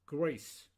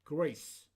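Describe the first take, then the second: Both takes have the same delivery.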